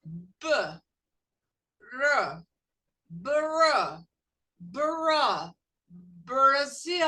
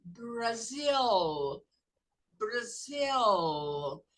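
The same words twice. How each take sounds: First: Brasil built up from b, r, br, loud; sound-by-sound drill. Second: Brasil with an English r and a clear l; English Brazil. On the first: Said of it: "repeat after me". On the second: Teacher overdoing Brasil in English for students. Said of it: "exaggerate the word". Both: Shown as a demonstration.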